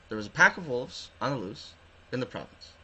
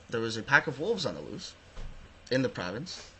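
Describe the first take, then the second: No difference in how they are said.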